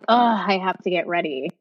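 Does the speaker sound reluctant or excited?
reluctant. It sounds reluctant and annoyed.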